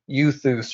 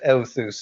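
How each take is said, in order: First: The first vowel is said as yoo. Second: The first vowel is said as eh-oo. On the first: The speaker calls it wrong. "everybody was Uing the the epsilon upsilon" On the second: The speaker calls it right. "you pronounced Euthus as Euthus"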